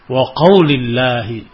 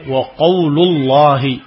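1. Vokal setelah l di qawl adalah i. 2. Vokal setelah l di qawl adalah u. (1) "Disebutkan dengan jar, yani majrur" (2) "dengan dhammah di lam"

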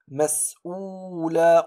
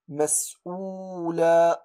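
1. الحركة بعد الهمزة تُنطق بإيجاز. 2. الحركة بعد الهمزة تُنطق بإيجاز.

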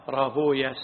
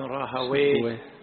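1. ينتهي الاسم بصوت 'uya'. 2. ينتهي الاسم بصوت 'wayh'. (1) "وإنما يقال راهويا سيبويا شبويا" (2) "فاللغويون يقولون ويه"

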